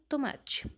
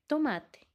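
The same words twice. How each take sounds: First: The final syllable has a hissing ch sound. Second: The final syllable has a plain, hard t sound. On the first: The speaker calls it wrong. "e não tomate" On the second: The speaker calls it right. "a primeira sílaba to se pronuncia igual que a última sílaba, te"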